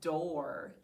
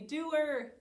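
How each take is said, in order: First: It is said as one smooth syllable. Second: It is drawn out like two syllables. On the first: This is the everyday way to say the word. "our next word is door" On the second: This is a way of saying it to help with spelling. "How do we say door to spell it? ... We say doer"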